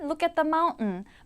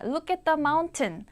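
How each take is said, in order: First: The t in mountain is swallowed into n. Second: The t in mountain is clearly released. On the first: "튼 발음이 나면 모두 모두 은 발음으로 나는 게 미국 발음의 성격입니다" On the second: "보다는"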